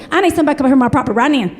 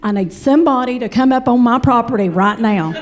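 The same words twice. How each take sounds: First: Put-on fast mountain accent, rushing the words; rushed frantic caller. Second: Steady Appalachian twang on property right now; slower Kentucky repeat. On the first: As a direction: blurt it in a hurry. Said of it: "She goes". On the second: Retold or imitated. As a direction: savor her words slowly. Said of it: "repeated slower".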